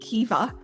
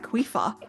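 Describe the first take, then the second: First: The middle consonant is a V sound. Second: The middle consonant is an F sound. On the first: This is how the group has been saying it. The speaker calls it wrong. "we're saying Kiva" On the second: This is how the person's own accent says it. The speaker calls it right. "it was more like Quifa. ... It's like not a V, it's like an F"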